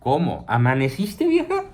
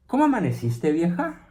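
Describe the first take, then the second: First: There is a break after 'cómo'. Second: It is said as one question without a break.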